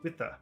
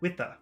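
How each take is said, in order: First: The R at the end is dropped. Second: The same.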